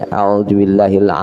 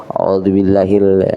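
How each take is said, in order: The two takes are said the same way.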